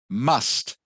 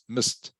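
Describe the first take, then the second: First: The word has a full, clear vowel. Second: The word has a short, weak vowel.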